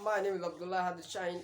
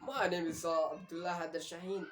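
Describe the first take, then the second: First: It is spoken faster in a British accent. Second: It is spoken in an American accent. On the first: "वो आधे words खा गया है इसमें और उसने स्पीड को ज्यादा फास्ट कर दिया है" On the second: "American people कहते हैं"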